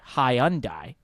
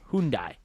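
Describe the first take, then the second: First: It is said the British way. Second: It is said the Korean way. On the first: "Brits say Hyundai" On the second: "Koreans say Hyundai"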